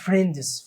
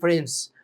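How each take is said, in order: First: The d sound is clearly pronounced. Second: The d sound is left silent. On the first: The speaker calls it wrong. "ما بقولش فريندز، فريندز ده غلط" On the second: The speaker calls it right. "المفروض اقول فريندز، بتنطق دي سايلنت"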